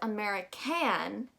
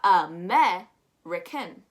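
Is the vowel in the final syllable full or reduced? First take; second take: full; reduced. First: The last syllable has a full vowel, like fan. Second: The last syllable has a weak, reduced vowel. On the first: The speaker calls it wrong. "We don't pronounce it as American" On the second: The speaker calls it right. "we've learned to drop that stress"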